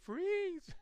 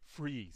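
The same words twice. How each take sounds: First: It is said in a lighter, higher voice. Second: It is said in a deep, commanding voice. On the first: The speaker calls it wrong. "wouldn't pull out his weapon and say" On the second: The speaker calls it right. "he would say it with authority, also probably yell, but however, adding that bass"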